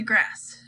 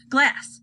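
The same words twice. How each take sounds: First: "grass" said with an r, a slip; misread word. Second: "glass" said clearly with an l, fixing the slip; corrected "glass" after the slip; corrected word. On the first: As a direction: slip into "grass" before correcting. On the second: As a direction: land on "glass" as the fix. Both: A narrator's reading.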